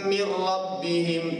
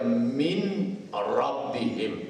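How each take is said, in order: First: The n blends fully into a doubled r. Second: The n is clearly pronounced before the r. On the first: The speaker calls it right. "tu idgham" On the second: The speaker calls it wrong. "Jangan kita baca min rabbihim. Tu tak betul"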